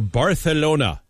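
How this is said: The c is lisped, like a th-sound.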